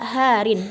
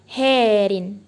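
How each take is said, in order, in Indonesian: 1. Vokal pertama dalam "harin" berbunyi a terbuka. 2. Vokal pertama dalam "harin" berbunyi seperti e. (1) "pada kata harin" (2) "sehingga dibaca menjadi herin"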